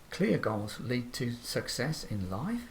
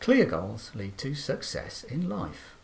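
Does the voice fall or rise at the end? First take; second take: rise; fall. First: The pitch rises at the end. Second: The pitch rises then falls at the end. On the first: The speaker sounds questioning or unsure. The speaker calls it wrong. "contrast that with a rising intonation" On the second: The speaker is confident and sure. The speaker calls it right. "we're confident and we're sure of the information we're giving"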